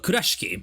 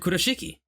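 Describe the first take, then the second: First: The name is pronounced with Japanese sounds. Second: The name is pronounced with English sounds.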